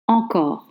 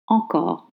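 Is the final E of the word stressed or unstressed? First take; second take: unstressed; unstressed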